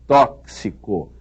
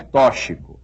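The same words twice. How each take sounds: First: The x sounds like ks. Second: The x does not sound like ks. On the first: The speaker calls it right. "é tóxico. ... Esse X deve ser lido como se houvesse aí um C e um S" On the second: The speaker calls it wrong. "E não é tóxico"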